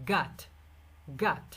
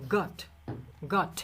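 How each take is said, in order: First: গাট said American style with an open আ vowel; American got. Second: গট said British style with a rounded অ vowel; British got. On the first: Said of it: "নেটিভরা বলে কি". (American উচ্চারণে গাট, খোলা আ ধ্বনি) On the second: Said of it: "ব্রিটিশদের ক্ষেত্রে উচ্চারণটা একটু আলাদা হবে". (ব্রিটিশ উচ্চারণে গট, গোল অ ধ্বনি) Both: Shown as a demonstration.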